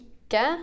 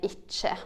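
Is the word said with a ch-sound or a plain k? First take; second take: plain k; ch-sound. First: It is said with a plain k sound, Bergen/Oslo style. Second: It is said with a ch-sound, speaker's own dialect.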